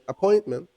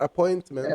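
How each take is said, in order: First: The middle T sound is dropped. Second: The middle T sound is clearly pronounced. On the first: The speaker calls it right. "a word like appointment" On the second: The speaker calls it wrong. "It's not appointment"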